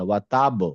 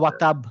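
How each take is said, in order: First: The final consonant ends with a bouncing release. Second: The final consonant stops flat with no bounce. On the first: The speaker calls it right. "একটু হেভি করে বল" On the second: The speaker calls it wrong. "আমরা বলবো না"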